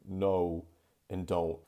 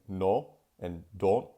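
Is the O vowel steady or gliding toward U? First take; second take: gliding; steady. First: The O vowel glides toward a U sound. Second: The O vowel stays pure and steady. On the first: The speaker calls it right. "it's always going to become a diphthong at the end, shifting towards an U sound" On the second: The speaker calls it wrong. "I'm not saying no and don't"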